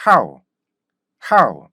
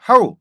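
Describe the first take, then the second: First: "how" punched loud, then dropping off; one bouncy falling syllable "how"; rhythmic English how. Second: "how" as rigid 하우 without rhythm; even two-vowel "how", Korean sounding; stiff Korean how. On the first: Teacher shows rhythm formed from 학, English-style "how". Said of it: "이런 리듬이 형성되는데". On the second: Teacher shows rhythm failing to form, stiff "how". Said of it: "뻣뻣한 발음이 만들어지게 돼요". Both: Shown as a demonstration.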